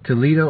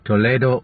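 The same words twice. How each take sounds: First: It is said with an American accent. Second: It is said with a Spanish accent.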